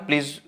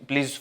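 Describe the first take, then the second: The two takes are said the same way.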